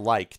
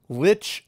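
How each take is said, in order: First: The word ends with a k sound. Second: The word ends with a ch sound. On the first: The speaker calls it right. "I still think it should be pronounced like" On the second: The speaker calls it wrong. "Lich as opposed to like"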